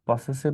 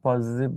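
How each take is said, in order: First: The middle consonant is a hissing s sound. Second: The middle consonant is a buzzing z sound. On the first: The speaker calls it wrong. "পসেসিভ না বলে" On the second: The speaker calls it right. "পজিটিভ বলা better"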